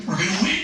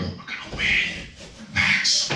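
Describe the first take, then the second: First: Rising lift on "win"; out of the whisper into a rising voice; voiced promise. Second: Barely audible, voiceless whisper; hushed, breath-only delivery; whispered promise. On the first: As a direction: say it aloud, lifting "win" at the end. Repeats the promise aloud. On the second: Retold or imitated. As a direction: whisper it privately to your son. Retold intimate promise to son.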